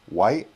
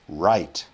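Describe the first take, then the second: First: The word begins with a W sound. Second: The word begins with an English R sound. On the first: The speaker calls it wrong. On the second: The speaker calls it right. "You want r. Let's start again"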